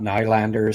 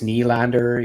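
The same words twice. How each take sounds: First: The first vowel sounds like 'eye'. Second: The first vowel sounds like 'ee'. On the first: The speaker calls it wrong. "it's not Nylander" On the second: The speaker calls it right. "the Y I think is pronounced like E"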